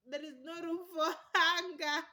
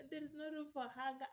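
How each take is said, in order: First: Loud laughing burst on hunger; laughing exclamation. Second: Said in the usual way. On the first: Real, not acted. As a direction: laugh the line out. Repeated line, laughing take.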